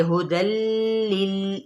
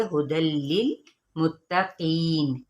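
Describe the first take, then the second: First: हुदल लिल said with a ghunna; wrongly nasalised हुदल लिल; wrong nasal. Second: हुदल लिल मुत्तकीन said slowly without ghunna; correct, slow हुदल लिल मुत्तकीन; no nasal. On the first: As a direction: add a nasal hum on लिल. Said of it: "ये गलत तरीका है". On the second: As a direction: merge it straight into लिल with no hum. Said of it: "बगैर गुन्ने के पढ़ेंगे". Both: Shown as a demonstration.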